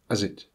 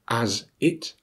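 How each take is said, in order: First: The words are reduced with schwa. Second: Both words are said in full.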